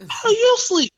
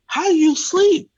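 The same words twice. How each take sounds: First: Even higher, louder outraged repeat; incredulous shriek. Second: Very high, loud incredulous shout; incredulous yell. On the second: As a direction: yell it at the clerk in disbelief. Yelling at the sleepy clerk. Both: Retold or imitated.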